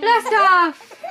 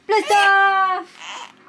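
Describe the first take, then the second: First: Loud playful launch call; excited blast off. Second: Excited blast off. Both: Pretend. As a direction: shout it like a rocket launch. Rocket play launch with baby.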